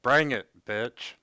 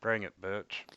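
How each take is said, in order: First: Breaking up on a bad connection; muffled mic cutting in and out. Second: Words dropping out over a bad mic; cutting out. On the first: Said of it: "You're cutting out there pretty bad". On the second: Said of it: "You'll have to speak up, we didn't hear that". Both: Real, not acted.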